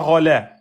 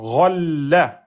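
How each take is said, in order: First: The middle consonant is short, not held. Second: The middle consonant is held, then released. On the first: The speaker calls it wrong. "C'est pas rolla" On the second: The speaker calls it right. "On bloque, on lâche"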